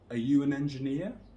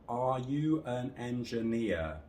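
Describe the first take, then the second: First: Only you and engineer are stressed. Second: Every word has equal length and equal stress. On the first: It sounds like a native speaker. The speaker calls it right. "where I only stress you and engineer" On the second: It sounds robotic or like a beginner. The speaker calls it wrong. "all of these words are the same length and the same stress"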